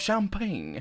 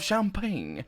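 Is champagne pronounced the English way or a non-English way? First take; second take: English; English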